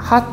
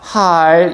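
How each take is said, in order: First: The final L sound is cut off abruptly. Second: The final L sound is held and continued. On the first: "사실상 발음을 핫, 약간 이렇게 되게 됩니다" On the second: "이 받침에 있는 리을은 지속음입니다. 할, 이런 식으로"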